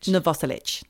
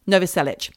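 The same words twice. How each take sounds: First: "Novoselic" as no-VOSS-litch; second-syllable stress. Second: "Novoselic" as NO-vo-SEL-itch; alternative pronunciation. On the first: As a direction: lean on VOS in "Novoselic". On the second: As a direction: say "Novoselic" with a full opening NO, ending in -itch. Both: Shown as a demonstration. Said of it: "whichever way you like to say it".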